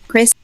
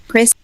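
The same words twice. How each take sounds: No difference in how they are said.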